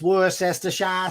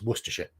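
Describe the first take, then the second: First: It is said with an American pronunciation. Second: It is said with a British pronunciation. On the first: The speaker calls it wrong. "American woman goes" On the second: The speaker calls it right. "but it's Worcestershire"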